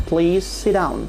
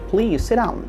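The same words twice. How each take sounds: First: The t in sit is dropped. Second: The t in sit is dropped.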